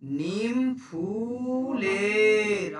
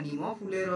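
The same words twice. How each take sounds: First: নিম ফুলের dragged out very slowly, syllables stretched; wrong way. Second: Said in the usual way. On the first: Shown as a demonstration. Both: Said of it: "আমরা এরকম বলি না".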